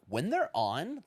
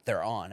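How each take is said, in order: First: Said in the usual way. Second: "they're on" dropped low with weight on "on"; emphatic repeat. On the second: Shown as a demonstration. Describing Subway staff at full speed, weighty low emphasis. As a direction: lean down hard on "on".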